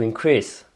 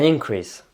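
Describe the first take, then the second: First: The stress is on the second syllable. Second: The stress is on the first syllable. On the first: It is a verb meaning to make bigger. "et sur le verbe sur la deuxième syllabe" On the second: It is a noun meaning a rise. "pour le nom sur la première euh, syllabe"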